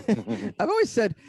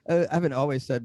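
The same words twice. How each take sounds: First: Chuckling through the words, slow; laughing. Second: Said in the usual way. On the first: Real, not acted. Guest laughing as he starts his answer to the hosts. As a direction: laugh the line out slowly.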